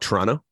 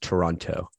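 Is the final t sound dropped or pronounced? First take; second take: dropped; pronounced. First: The final t sound is dropped. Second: The final t sound is pronounced. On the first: The speaker is from Canada. "You just completely abandon that last T" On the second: The speaker is from outside Canada. "if you're from anywhere else in the world"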